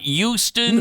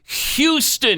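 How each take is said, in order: First: The word begins without any H sound. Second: The word begins with a clear H sound. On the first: The speaker calls it wrong. "It's not Houston" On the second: The speaker calls it right. "It's Houston"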